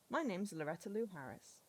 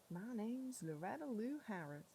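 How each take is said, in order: First: It is read in the speaker's own accent. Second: It is read in an attempted American accent.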